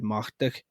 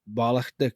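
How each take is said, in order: First: The word is said in a shortened form. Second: The word is said in its full form.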